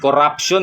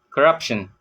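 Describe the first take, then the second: First: Each syllable gets even weight. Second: The syllables step up and down in stress. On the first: "Sa atin corruption eh, para bang syllabical" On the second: "para bang staircasing"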